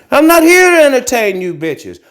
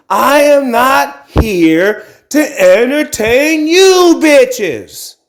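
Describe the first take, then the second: First: Said in the usual way. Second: Slow, higher, word by word on "I am not here to entertain"; emphatic statement. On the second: Shown as a demonstration. Telling his viewers off, slow and emphatic on every word. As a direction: stretch "am" and hammer every word slowly. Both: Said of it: "And the emphasis is".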